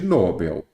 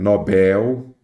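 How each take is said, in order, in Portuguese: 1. A sílaba tônica é a primeira. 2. A sílaba tônica é a última. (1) "nada de Nobel" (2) "Bel, ela é uma oxítona"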